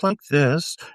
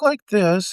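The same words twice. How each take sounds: First: The voice drops to a lower pitch. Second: The voice is raised to a higher pitch. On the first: "and then drop like this" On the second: "I can talk like this"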